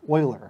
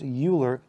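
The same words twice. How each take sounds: First: The name starts with an 'oy' sound. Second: The name starts with a 'you' sound. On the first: The speaker calls it right. "It's pronounced Euler. It always makes me think of like Texas" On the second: The speaker calls it wrong. "it's not pronounced Euler"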